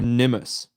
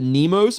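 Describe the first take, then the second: First: The name echoes the end of anonymous. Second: The name does not echo the end of anonymous. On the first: "because like anonymous" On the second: "I like the nickname Nemos"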